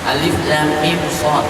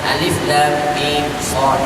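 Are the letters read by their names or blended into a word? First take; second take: by name; by name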